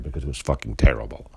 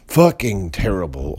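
First: Said in the usual way. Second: "Fucking terrible" hit harder, louder, stress on "fucking"; emphatic repeat. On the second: Real, not acted. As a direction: slam the word "fucking" in disgust.

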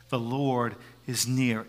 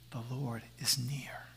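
First: Slow whisper, a little fuller; soft whisper. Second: Slow unvoiced whisper, much softer. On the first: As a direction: repeat it gently, still whispering. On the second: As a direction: breathe it close to the ear. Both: Shown as a demonstration. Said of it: "a whisper reminds us".

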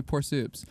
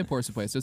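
First: "Por soups" clipped to two English-style syllables; slang clip. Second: "Por supuesto" in full, softer Spanish syllables; proper Spanish. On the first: Mock lesson on slang, lazy clipped form. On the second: Mock lesson on slang, proper Spanish form. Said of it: "don't say". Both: Shown as a demonstration.

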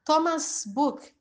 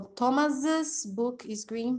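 First: Thomas' said like plain Thomas; Thomas' book with no extra syllable; wrong form. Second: Thomas's said Thomas-iz, rising; Thomas's with the extra "iz" syllable; right form. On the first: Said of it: "se eu falar Thomas' book". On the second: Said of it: "Então, como o nome Thomas". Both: Shown as a demonstration.

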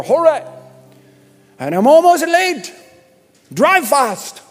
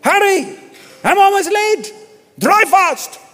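First: High, loud hammed-up Irish accent. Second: Higher, louder hammed-up Irish accent, hurried; Irish accent, again. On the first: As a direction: ham up a rushed Irish traveller. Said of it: "It's the best Irish I can do". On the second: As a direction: shout it like a late Irish traveller. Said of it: "Let me say it again".

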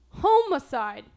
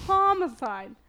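First: Loud Homicide starting with a long HOME; homed pronunciation. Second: Loud, higher Homicide with an open HAH; corrected pronunciation. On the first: Back to practising her word, loud HOME-icide. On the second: Practising for her co-host, loud HAH-micide. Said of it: "Yeah, there you go". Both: Shown as a demonstration.

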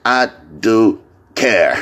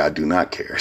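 First: Slow "I do care" with do weighted; stress on do. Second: "I do not care" softer and lower; quiet mock quote. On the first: Shown as a demonstration. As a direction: lean on "do" slowly. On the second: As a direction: mumble "I do not care" like the expected line. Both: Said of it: "She thought I was gonna say".

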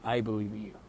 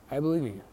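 First: Said in the usual way. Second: Believe pushed higher and louder; stress on believe. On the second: Shown as a demonstration. Telling a depressed listener he believes in them, with stress on "believe". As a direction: lean hard on "believe", emphatic and sincere.

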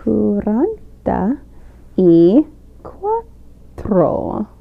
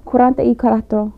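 First: "cuarenta ... y ... cuatro", one word at a time; slow and separated. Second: Quick, run-together Spanish "cuarenta y cuatro"; so fast. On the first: Guest repeats the Spanish number for hosts, slow and careful. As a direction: draw out "cuarenta y cuatro" very slowly with long pauses. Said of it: "We, like, say it again". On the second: Guest shows hosts how forty-four is said, so fast. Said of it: "like, so fast". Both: Shown as a demonstration.

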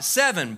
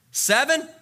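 First: SEVEN falling, thrown back at the asker; incredulous echo. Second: SEVEN rising high as a question. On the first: Jesus answering Peter's question, dismissive echo. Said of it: "Jesus replied". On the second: Peter asking Jesus how often to forgive, questioning. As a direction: ask "Seven" with a clear upward lift. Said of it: "got up the nerve to ask". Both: Acted.

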